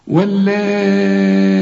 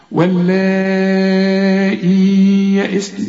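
First: واللائي with the long vowel held four counts; long madd. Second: Sung, intone واللائي melodically; sung recitation. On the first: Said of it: "عندك مادة أربع حركات". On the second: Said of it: "ما تقولش واللائي". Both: Shown as a demonstration.

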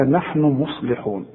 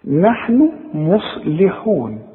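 First: Slow careful نحن مصلحون with the noon held; correct reading. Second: Slow wrong reading of نحن مصلحون. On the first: Teacher showing the correct Quran reading. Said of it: "إنما نحن مصلحون". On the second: Teacher demonstrating the wrong Quran reading. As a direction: read نحن مصلحون slowly the way you should not. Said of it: "ما تقولش مصلحون". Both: Shown as a demonstration.

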